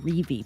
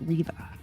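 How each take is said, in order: First: The name is one syllable ending in v. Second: The name is two syllables ending in uh. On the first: The speaker calls it wrong. "so I keep wanting to say Reeve" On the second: The speaker calls it right. "but it's pronounced Reva"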